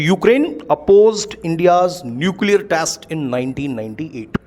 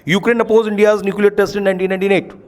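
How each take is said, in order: First: Spoken clearly and loudly with distinct word stresses. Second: Spoken rushed together with a dropping, softer voice. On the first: The speaker calls it right. "लेकिन द moment मैं चाहता हूं सभी सुने" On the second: The speaker calls it wrong. "एक इसको बोलने का तरीका हो सकता है"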